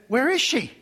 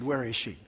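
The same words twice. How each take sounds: First: Higher, louder and pointed; the demanding way to ask, set against the polite one. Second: Softer, lower and courteous; the polite way to ask, set against the demanding one. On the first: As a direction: press her for an answer, not polite. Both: Shown as a demonstration. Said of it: "Very polite".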